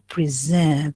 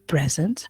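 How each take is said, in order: First: The stress is on the second syllable. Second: The stress is on the first syllable. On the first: It is the verb, to present. "so the focus, okay, is on the second syllable" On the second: It is the noun, a gift. "a present"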